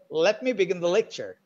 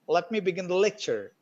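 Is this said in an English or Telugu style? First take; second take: English; English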